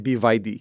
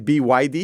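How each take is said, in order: First: The letters are said with a Russian accent. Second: The letters are said with a plain English accent. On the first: "That's such a Russian way of saying B" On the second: "in Russian, you don't say B Y D"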